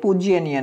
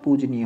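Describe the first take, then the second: First: A 'y' sound follows 'pooj' in the word. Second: No 'y' sound follows 'pooj' in the word. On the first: The speaker calls it wrong. "ये पूज्यनीय नहीं होता" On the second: The speaker calls it right. "पूजनीय होता"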